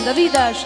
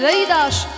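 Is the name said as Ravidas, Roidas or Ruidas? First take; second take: Ravidas; Roidas. First: The name is said as Ravi Das. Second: The name is said as Roi Das. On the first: "হিন্দিতে বটা একটু উয়া উচ্চারণ হয়" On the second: "তার থেকে হচ্ছে রই দাস"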